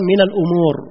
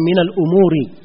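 First: The last word ends on a bare consonant. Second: The last word ends with an added i vowel. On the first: "Umur di sini disukun" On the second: "Boleh juga di kasrah"

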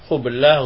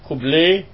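First: The final vowel is a plain open 'a'. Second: The final vowel is tilted toward 'e' or 'i'.

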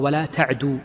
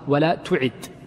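First: The verb is read ta'du, ending in long u. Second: The verb is read tu'id, with u then i. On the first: Do not run. "بعض الرواة ينطقها ولا تعدو" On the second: Do not repeat the prayer. "وبعضهم ينطقها ولا تعد"

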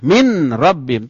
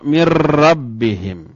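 First: A separate n is pronounced before the r. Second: The n merges into a doubled r sound. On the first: The speaker calls it wrong. "Tidak boleh" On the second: The speaker calls it right. "contoh dengan ro"

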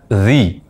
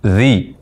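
No difference in how they are said.

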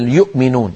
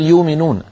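First: A glottal stop is heard before the vowel. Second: No glottal stop; the vowel is lengthened instead. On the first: "سواء كانت الهمزة ساكنة مثل يؤمنون" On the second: "قريش لا تهمز الهمزات الساكنة"

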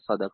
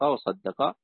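First: The middle d sound is single and short. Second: The middle d sound is doubled and held. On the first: "بالتخفيف" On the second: "والتشديد"

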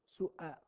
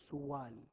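First: The middle consonant is a glottal stop. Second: The middle consonant is a w sound. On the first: The speaker calls it right. "والصوت أن تنطقها الصوت همزة" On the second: The speaker calls it wrong. "ما أنت بتقول سوال بالواو"

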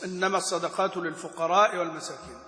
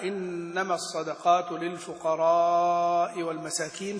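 First: The vowel in lil-fuqara is short. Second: The vowel in lil-fuqara is held long. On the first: The speaker calls it wrong. "ما هكذا أقرأنيها رسول الله" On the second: The speaker calls it right. "فمدها"

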